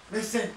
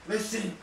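The two takes are said the same way.

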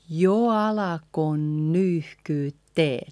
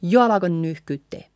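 First: Slow, linked jo alako nyyhkyttee; slow careful teaching model; a bit slower. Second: Fast jo alako nyyhkyttee; quick run-together line; at tempo. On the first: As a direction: draw the phrase out for learners. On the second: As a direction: rattle the phrase off, words joined. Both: Shown as a demonstration. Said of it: "A little bit slower".

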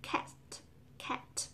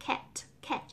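First: Cat with a short open A; correct cat. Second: Cat with a vowel like E; wrong cat. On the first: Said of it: "thực ra nó là". (đọc cat đúng, âm A mở) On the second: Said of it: "Mình hay đọc là". (đọc cat sai, nguyên âm như E) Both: Shown as a demonstration.

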